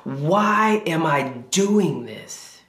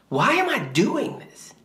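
First: Slow it right down, heavy with frustration; slow frustrated plea. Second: Pitched much higher, a cry of frustration; mock anguished yell. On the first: Retold or imitated. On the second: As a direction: let it jump up high like a desperate cry. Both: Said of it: "yelling at God".

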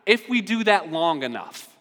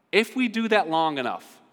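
The two takes are said the same way.

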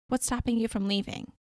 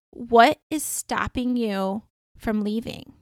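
First: Said in the usual way. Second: Slow, deliberate, spaced-out question; slow pointed question. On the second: Retold or imitated. Dreamer confronting a woman about her bad relationship, slow and pointed. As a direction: ask it firmly, stretching the words.

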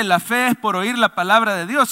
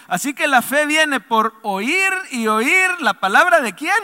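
First: Said in the usual way. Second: "oír y oír" leaned on, rising to "quién"; stressed oír y oír. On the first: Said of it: "en realidad no dice". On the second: Shown as a demonstration. Pastor reads the true verse, stressing "oír y oír". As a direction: lean on "oír y oír" and lift "de quién". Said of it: "sino que dice así, lea conmigo".

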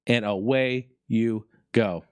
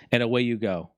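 First: Slow, drawn-out "And away you go"; lingering slow repeat of "And away you go"; slow, savoring. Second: Said in the usual way. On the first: Shown as a demonstration. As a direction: stretch "And away you go" out, relishing it.

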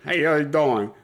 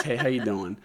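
First: Put-on laughing Brooklyn accent, louder; hammed-up Brooklyn "how you doing". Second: Put-on light Brooklyn accent greeting; casual Brooklyn "how you doing". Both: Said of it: "The Brooklyn accent's back".

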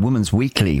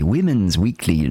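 First: Said in the usual way. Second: Women's said slowly and carefully with a clear short i; Women's with a crisp short i, not woman. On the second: Shown as a demonstration. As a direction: spell out "Women's" deliberately, slower. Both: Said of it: "can't say the word women".

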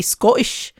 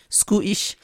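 First: Said in the usual way. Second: Attempted Scottish accent with a tight "oo" in Scottish; bad Scottish accent. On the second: Shown as a demonstration. Speaker testing the author's nationality aloud, badly faked Scottish accent. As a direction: softly try out a Scottish "Scootish". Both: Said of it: "can't do a Scottish accent".

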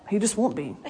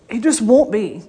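First: Soft, low aside. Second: Louder, punching the word won't; emphatic repeat. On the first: Preacher muses about her dad, softly. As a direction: quietly, pitch down. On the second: Preacher insists to congregation about her dad, emphatic. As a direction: land it firmly the second time. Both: Shown as a demonstration.

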